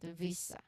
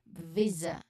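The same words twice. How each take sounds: First: The middle consonant is a hissing s sound. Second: The middle consonant is a buzzing z sound. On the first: The speaker calls it wrong. "not visa" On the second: The speaker calls it right. "the one vibrating, the one buzzing"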